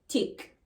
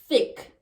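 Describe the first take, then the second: First: It begins with a plain t sound. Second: It begins with a voiceless th sound. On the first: "Voiceless T H becomes T"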